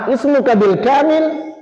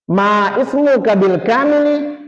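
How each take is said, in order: First: Slow, high asking tune; question intonation. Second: Slow, "kamili" ending in -i said clearly; full case ending. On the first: Teacher modelling a full-name question, slow and high. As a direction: ask it slowly and high. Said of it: "Saya akan bacakan seperti ini intonasinya". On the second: Teacher showing the correct Arabic ending to students, slowly. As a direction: add the vowel and say "kamili" slowly. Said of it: "ujungnya seperti ini". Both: Shown as a demonstration.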